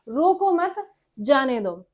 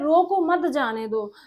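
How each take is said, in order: First: The pause comes after मत. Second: The pause comes after रोको.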